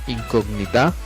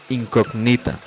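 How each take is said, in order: First: The stress is on the last syllable. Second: The stress is on the second-to-last syllable. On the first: "se convertiría en palabras agudas" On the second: "se convertiría claramente en una palabra grave"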